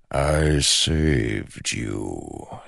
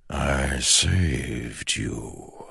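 First: Slow ancient shadow voice. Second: Very slow, soft and hollow; slow ancient shadow voice. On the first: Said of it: "as if making a point". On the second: The shadow speaks. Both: Acted. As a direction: draw out every word like smoke.

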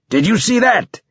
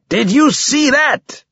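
First: High, exultant battlefield roar. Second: Drawn-out roar, pitched even higher. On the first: Borges to his squadmate after the kill, roaring. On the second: Borges repeating himself to his squadmate, slow stretched roar. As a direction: roar it slower, stretching the words high. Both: A narrator's reading.

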